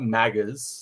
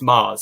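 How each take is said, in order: First: The G is pronounced in the name. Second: The G is silent in the name. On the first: The speaker calls it wrong. "it's not Maggers" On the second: The speaker calls it right. "I think it's Mars. I think it's supposed to be like a silent G"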